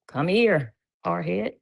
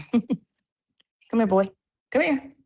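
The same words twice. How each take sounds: First: Said in the usual way. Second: High sing-song call to the dog. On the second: Real, not acted. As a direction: coax the puppy over, voice up high.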